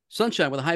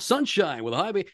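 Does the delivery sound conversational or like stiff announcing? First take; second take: conversational; stiff announcing. First: It sounds like relaxed, natural everyday talk. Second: It sounds like stiff, formal announcer reading. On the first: Talking naturally to one person. The speaker calls it right. "now you're just talking to me" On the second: Reading a script to an audience. The speaker calls it wrong. "read that like you're on the air"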